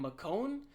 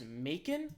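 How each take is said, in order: First: The word does not rhyme with bacon. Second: The word rhymes with bacon.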